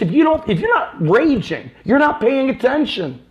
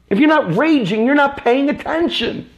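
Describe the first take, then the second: First: Rising insistence, building to the point; heated rant. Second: Higher, pushed repeat of the line; more intense repeat. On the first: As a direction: hammer it home to the viewers. Ranting repeat about raging. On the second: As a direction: hit it harder the second time. Same words repeated, more intense. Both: Real, not acted.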